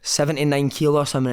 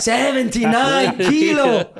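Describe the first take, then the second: First: Said in the usual way. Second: Put-on high, very slow Italian-accented "Seventy-nine kilo"; Paolo Di Canio. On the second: Italian manager repeating the weight in horror, Italian accent.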